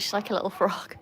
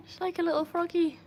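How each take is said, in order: First: Said in the usual way. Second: Higher cutesy repeat with froggy. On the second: Real, not acted. Owner gushes that her dog jumps like a froggy. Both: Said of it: "so cute".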